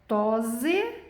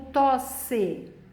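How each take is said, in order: First: The middle consonant is a buzzing Z sound. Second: The middle consonant is a hissing S sound. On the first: The speaker calls it wrong. "entre vogais eu tenho som de Z e som de S" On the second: The speaker calls it right. "O som é de S"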